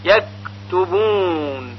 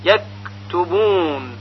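The two takes are said the same way.

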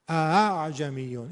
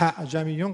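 First: The second hamza is softened, like two smooth vowels. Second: The second hamza sounds like a breathy h. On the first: The speaker calls it right. "این درسته، ... برای دومی هل به صدا میدیم فقط" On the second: The speaker calls it wrong. "غلطه"

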